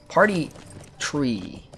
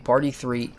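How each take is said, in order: First: The second word begins with a plain 't' sound. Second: The second word begins with a 'th' sound. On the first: The speaker calls it right. "I have a problem with uh, saying three and tree" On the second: The speaker calls it wrong.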